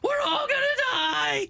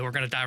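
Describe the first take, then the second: First: It is screamed loudly. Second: It is said quietly, as if muttered.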